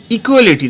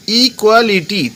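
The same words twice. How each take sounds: First: Said in the usual way. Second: "equality" spaced out as i, kwa, li, ti; split into syllables. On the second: Shown as a demonstration. Teacher counting syllables, "equality" said part by part. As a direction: sound out each syllable of "equality" separately. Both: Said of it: "equality তিনটে syllable আছে".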